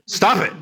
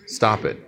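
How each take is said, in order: First: It is said loudly and adamantly. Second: It is said fairly softly.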